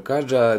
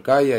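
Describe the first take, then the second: First: The middle consonant sounds like j in jam. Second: The middle consonant sounds like y in yes. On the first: "Дехто каже Каджа" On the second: "дехто каже Кая, я схиляюся до Кая все-таки"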